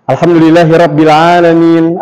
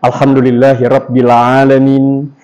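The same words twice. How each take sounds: First: "Alhamdulillahirabbil alamin" in the speaker's middle range, pitch moving; rolling Indonesian-style tune on "Alhamdulillahirabbil alamin"; incorrect wavy intonation. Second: "Alhamdulillahirabbil alamin" on a low, level note; low monotone "Alhamdulillahirabbil alamin"; correct flat intonation. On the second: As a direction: keep "Alhamdulillahirabbil alamin" free of waves, low. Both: Shown as a demonstration.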